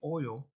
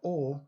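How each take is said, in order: First: The word is said in a standard accent. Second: The word is said in a Southern US accent.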